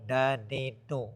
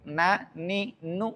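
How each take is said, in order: First: The nasal hum sounds blocked and muffled. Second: The nasal hum resonates freely and openly. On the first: The speaker calls it wrong. "kalau kita tutup makhrajnya bunyinya tidak bagus" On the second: The speaker calls it right. "Na ni nu itu baru enak"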